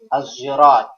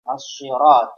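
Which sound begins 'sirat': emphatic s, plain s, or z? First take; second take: z; emphatic s. First: Sirat starts with a z sound instead. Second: Sirat starts with an emphatic, heavy s sound. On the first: "ada yang membaca lagi"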